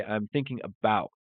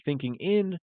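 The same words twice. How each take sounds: First: About settled, falling; correct version. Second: In said higher, pitch rising; wrong version. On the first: Teacher gives the right preposition, settled. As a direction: state thinking about as the answer. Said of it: "we're gonna say". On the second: Teacher contrasts the wrong preposition, questioning. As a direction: flag thinking in as the mistake. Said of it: "instead of saying". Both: Shown as a demonstration.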